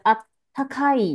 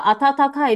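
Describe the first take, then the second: First: The middle has one held 'tt' sound. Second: The middle has two separate 'ta' syllables. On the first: This is the casual spoken form. "口语型" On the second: This is the standard form of the word. "他就把啊他他开变成啊他开"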